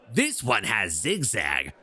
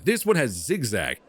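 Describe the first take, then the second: First: It is said in a put-on character voice. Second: It is said in a plain, normal voice. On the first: The speaker calls it right. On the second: The speaker calls it wrong.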